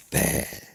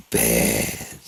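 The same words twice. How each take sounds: First: Said in the usual way. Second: "bad" dropped low, with force; menacing BAD. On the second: Shown as a demonstration. Speaker retries his threat to the doctor, menacing "bad". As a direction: say "bad" deeper and heavier, as a threat. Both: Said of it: "Hold on, let me get".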